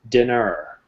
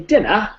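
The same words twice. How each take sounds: First: It is said in a North American accent. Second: It is said in a British accent.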